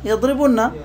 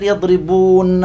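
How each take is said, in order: First: يضربون cut to yaḍribunna, short u, higher pitch; shortened vowel form. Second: يضربون with a long, drawn-out ū before nn; long vowel form. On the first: Teacher shows the form after deletion, short u in يضربون. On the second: Teacher shows the form before deletion, drawn-out ū in يضربون. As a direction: stretch "يضربون" as yaḍribūūnna. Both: Shown as a demonstration. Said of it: "إيش قلنا؟".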